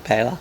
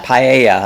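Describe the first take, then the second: First: "pela" said PAY-luh, two syllables, no i sound; wrong pronunciation. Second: "Paella" said pie-AY-uh, three syllables; corrected pronunciation. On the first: Host showing how he misreads the dish, PAY-luh. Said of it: "I call it pela". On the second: Host repeating the correction from his co-host, pie-AY-uh. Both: Shown as a demonstration.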